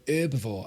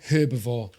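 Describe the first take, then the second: First: The word begins with a silent H. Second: The word begins with an audible H sound. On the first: "when people go herbivore" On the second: "We pronounce the H in the U K"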